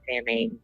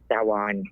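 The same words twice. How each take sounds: First: The word is said the common, everyday way. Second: The word is said the actual, traditional way. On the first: The speaker calls it wrong. "I know the Muggles call it Samhain, so I figured I'd say it that way" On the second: The speaker calls it right. "But it's actually pronounced Samhain"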